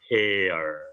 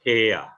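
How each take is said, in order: First: It is said with an American accent. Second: It is said with a British accent. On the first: "kalau Amerika" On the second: "kalau U, U, UK"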